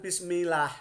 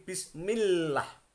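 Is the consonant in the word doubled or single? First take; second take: single; doubled. First: The lam is said short and single. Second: The lam is doubled and held longer. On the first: The speaker calls it wrong. "Jangan bismillah ya" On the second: The speaker calls it right. "tapi bismillah. Mil masuk ke dalam lam ya"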